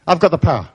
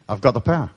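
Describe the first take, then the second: First: Rallying, forceful affirmation; emphatic affirmation. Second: Said in the usual way. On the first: Shown as a demonstration. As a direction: proclaim it for everyone to follow. Leads audience to repeat it.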